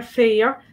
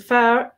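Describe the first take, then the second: First: Fair with the vowel held long, as in féar for grass; drawn-out fada vowel in fair. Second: Fair with a quick short vowel, as in fear for man; short unaccented vowel in fair. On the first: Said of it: "that's grass". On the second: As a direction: say fair briskly with no lengthening. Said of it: "that's a man". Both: Shown as a demonstration.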